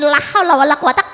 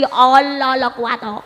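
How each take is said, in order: First: The phrase is pronounced fully with every syllable. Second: The phrase is slurred into a shortened form. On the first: This is the intended phrase. The speaker calls it right. "karepe la haula wala quwata" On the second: An old person's tongue struggles with the phrase. The speaker calls it wrong. "ilat Jawa ilat tuwa ... kangelan dadi Allah la quwata"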